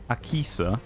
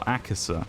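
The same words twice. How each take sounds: First: The middle syllable sounds like 'key'. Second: The middle syllable sounds like 'kih'. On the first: "it could be pronounced more like key" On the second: "or it could be pronounced more like ki"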